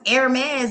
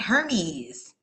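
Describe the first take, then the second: First: The word starts without an H sound. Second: The word starts with an H sound. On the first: The speaker calls it right. "it's pronounced Hermes" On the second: The speaker calls it wrong. "and not Hermes"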